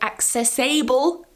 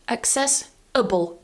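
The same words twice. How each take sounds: First: The ending has a full, strong vowel. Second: The ending is quick with a weak vowel. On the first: The speaker calls it wrong. "watch that you're not saying accessible" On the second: The speaker calls it right. "It's really quick and really weak"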